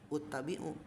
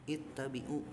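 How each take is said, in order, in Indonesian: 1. Kata ini diawali dengan vokal u. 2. Kata ini diawali dengan vokal i. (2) "tapi ittabi'u gitu kasroh"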